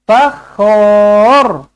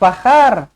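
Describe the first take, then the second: First: The vowel after kh is full and rounded. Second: The vowel after kh is open and unrounded. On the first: The speaker calls it right. "kena bulatkan" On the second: The speaker calls it wrong. "Bukan fakhar"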